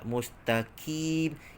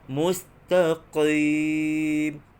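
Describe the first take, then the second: First: The q sound is light, like a k. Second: The q sound is heavy, from the throat. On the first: The speaker calls it wrong. "huruf qaf dibaca dengan nipis pula" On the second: The speaker calls it right. "Kena baca dengan tebal"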